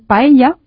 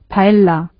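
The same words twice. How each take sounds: First: The double L is not said as a plain L. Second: The double L is said as a plain L. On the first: "en vez de hacerlo así" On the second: "lo que pronuncian es paella"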